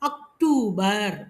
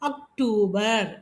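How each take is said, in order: No difference in how they are said.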